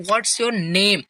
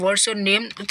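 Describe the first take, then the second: First: "name" lifts slightly up at the end; rising tone. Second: Said in the usual way. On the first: Shown as a demonstration. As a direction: end "what's your name" with a small rise on "name", like asking. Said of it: "थोड़ा सा little up यहाँ पे हो रहा है". ("name" पर हल्का ऊपर उठता tone) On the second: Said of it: "at the last of the name".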